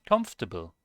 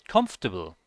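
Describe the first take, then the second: Both takes have the same delivery.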